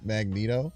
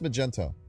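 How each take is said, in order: First: The middle sounds like 'net', as in Mag-net-o. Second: The middle sounds like 'gen', as in Ma-gen-to. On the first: The speaker calls it wrong. "you said Magneto" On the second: The speaker calls it right. "it's pronounced Magento"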